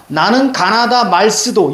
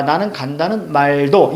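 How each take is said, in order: First: "나는 가나다 말스도" higher, slow and syllable by syllable; literal reading. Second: "나는 간다는 말도" smoothed into everyday words at normal pitch; blurred-together reading. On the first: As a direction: read "나는 가나다 말스도" slowly, letter by letter as written. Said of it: "읽을 때는 이렇게 읽지만". ("나는 가나다 말스도"를 적힌 그대로 천천히 읽기) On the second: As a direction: run "나는 간다는 말도" together as modern Korean. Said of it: "이렇게 뭉개서 읽을 줄 알아야". ("나는 간다는 말도"를 현대어처럼 뭉개서 읽기) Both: Shown as a demonstration.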